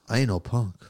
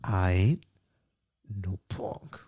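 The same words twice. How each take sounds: First: It is said at normal speed. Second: It is said slowly.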